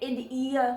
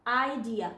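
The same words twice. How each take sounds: First: "id ear" split after a short "id"; wrong syllable break. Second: "idea" opening on "eye", then dia; long vowel I. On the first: Teacher showing what cannot be read, wrong break. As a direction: misread idea as "id ear", short first vowel. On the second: Teacher modelling the right reading, long I. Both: Shown as a demonstration. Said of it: "We cannot read it id ear".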